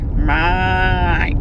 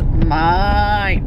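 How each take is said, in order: First: Lightly imitated broad Aussie "Mate", drawn out and falling; a hint of the Aussie man stretching "Mate". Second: Mild imitation of the Aussie "Mate", long falling vowel; lightly copying the broad Aussie "Mate". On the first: Imitating the Aussie guy at the gin tasting, drawn-out "Mate". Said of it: "that's how he would say it". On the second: Copying the Noosa man's "Mate" all week, drawn out. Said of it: "all I could say all week was".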